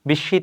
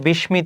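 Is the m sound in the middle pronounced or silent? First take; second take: silent; pronounced. First: The m sound in the middle is silent. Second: The m sound in the middle is pronounced. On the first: The speaker calls it right. "এখানে হবে বিষ, বিস্মিত হবে" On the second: The speaker calls it wrong. "অনেকে উচ্চারণ করে বিস্মিত, বিস্মিত হবে না, ময়ের উচ্চারণটা হবে না"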